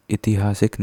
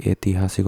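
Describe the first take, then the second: First: ऐतिहासिक said as "itihasik"; "i-tihasik" for ऐतिहासिक, as the error; wrong short i opening. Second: ऐतिहासिक said as "aitihasik"; "ai-tihasik" for ऐतिहासिक; correct ai opening. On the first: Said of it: "नहीं होता". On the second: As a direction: open ऐतिहासिक on a long e or ai. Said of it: "होता है". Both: Shown as a demonstration.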